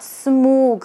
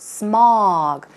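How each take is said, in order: First: The vowel is said with the jaw less open. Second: The vowel is said with the jaw dropped open. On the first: The speaker calls it wrong. "it's not smog" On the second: The speaker calls it right. "A W, that's where you drop your jaw"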